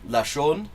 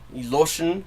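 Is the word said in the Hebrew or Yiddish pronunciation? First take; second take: Hebrew; Yiddish. First: It is said with the Hebrew pronunciation. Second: It is said with the Yiddish pronunciation.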